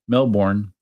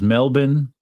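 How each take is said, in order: First: It is said the way non-Australians say it. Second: It is said the way Australians say it. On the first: The speaker calls it wrong. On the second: The speaker calls it right.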